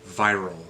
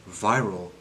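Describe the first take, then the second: No difference in how they are said.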